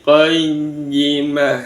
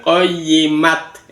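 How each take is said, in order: First: Qayyimah ending in a breathed h; stopped ha ending. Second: Qayyimat closed with a sounded t; wrong t ending. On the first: Teacher showing the correct stop, qayyimah with final h. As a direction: draw out qayyimah and close on h, no t. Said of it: "sebagai huruf ha". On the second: Teacher showing the wrong stop, qayyimat with final t. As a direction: end qayyimat on a hard t, not a breathed h. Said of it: "bukan qayyimat". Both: Shown as a demonstration.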